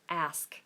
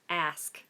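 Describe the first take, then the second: No difference in how they are said.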